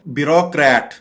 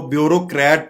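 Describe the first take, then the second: First: "ब्यूरोक्रेट" as bi-rok-rat; correct pronunciation. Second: "ब्यूरोक्रेट" as byo-ro-krat; wrong pronunciation. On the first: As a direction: say "ब्यूरोक्रेट" with short bi, open rok. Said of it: "correct pronunciation है". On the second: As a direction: say "ब्यूरोक्रेट" with a byo start and long o. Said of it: "ये जो कि गलत है". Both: Shown as a demonstration.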